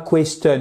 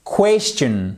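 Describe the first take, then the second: First: "question" with a hard T, KWES-tun, no CH sound; "question" ending in a plain "tun"; mispronounced question. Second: "Question" as KWESS-chun, open E and CH; "Question" with wide E, then a "chun" ending; open vowel. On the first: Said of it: "Et pas question, non". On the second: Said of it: "Vous voyez que c'est ouvert". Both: Shown as a demonstration.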